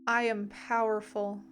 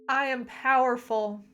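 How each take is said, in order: First: It is said at a normal volume. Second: It is yelled at full volume.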